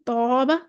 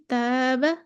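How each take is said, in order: First: "तौबा" with a heavy, dark long alif; full, back first vowel in "तौबा"; मोटा अलिफ. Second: "तैबा" with a thin, light long alif; light, fronted first vowel in "तैबा"; बारीक अलिफ. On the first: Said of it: "मोटा करने के लिए". ("तौबा" का अलिफ मोटा करके) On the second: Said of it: "बारीक पढ़ने के लिए". ("तैबा" का अलिफ बारीक करके) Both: Shown as a demonstration.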